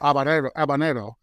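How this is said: The word is pronounced with Spanish sounds. "if I was saying it in Spanish, it would be habanero"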